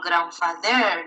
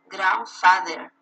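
First: The stress falls on a later syllable, not grand. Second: The stress falls on the first syllable, grand. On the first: The speaker calls it wrong. "You don't have grandfather" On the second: The speaker calls it right. "you have grandfather"

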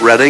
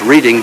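First: It sounds different from the ordinary verb reading. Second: It sounds like the ordinary verb reading. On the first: The speaker calls it right. "but they pronounce it Reading" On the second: The speaker calls it wrong. "like it's reading"

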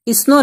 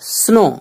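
First: A short 'i' vowel comes before the s. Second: The word starts directly on the s sound. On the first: The speaker calls it wrong. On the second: The speaker calls it right.

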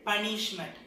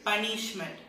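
No difference in how they are said.

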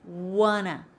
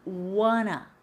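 Both takes have the same delivery.

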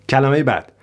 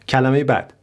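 The two takes are said the same way.

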